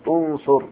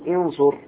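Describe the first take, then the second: First: The first vowel is a u-sound. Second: The first vowel is an i-sound. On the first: The speaker calls it right. "قل انصر، هكذا بضم الهمزة" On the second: The speaker calls it wrong. "لا تقول انصر"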